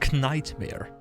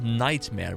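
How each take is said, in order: First: The word begins with a k sound. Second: The word begins with a plain n sound.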